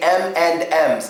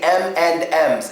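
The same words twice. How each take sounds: First: The word 'and' is said in full. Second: The same.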